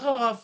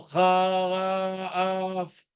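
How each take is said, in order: First: It is read fast, with the sounds run together. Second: It is read slowly, with the sounds drawn apart. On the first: "quand tu le lis, tu le lis vite, ça devient haraf" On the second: "il lit lentement"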